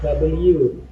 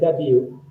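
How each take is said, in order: First: The letter is said the British way. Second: The letter is said the American way. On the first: "we follow B B C English R T, received pronunciation. Okay, so it should be uh, W" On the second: "in American English, uh, they say W"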